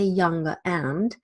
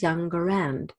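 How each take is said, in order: First: There is no R sound between the words. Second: An R sound links the two words. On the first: "some people will still say" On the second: "take the R from the end of this word and bring it to the beginning of the next"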